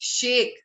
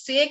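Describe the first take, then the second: First: The word begins with a hissing sh sound. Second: The word begins with a plain s sound. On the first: The speaker calls it right. "It is शेक" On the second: The speaker calls it wrong. "Herbal हमारा सेक नहीं है"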